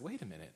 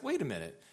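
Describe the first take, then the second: First: Softer, dawning realization, retold; calmer afterthought. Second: Higher, indignant interruption, retold; worked-up objection. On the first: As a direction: think it over, pressure down. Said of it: "blood pressure's down a little bit". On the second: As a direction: cut in, getting worked up. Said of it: "getting a little bit worked up".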